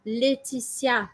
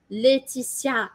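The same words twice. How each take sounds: Both takes have the same delivery.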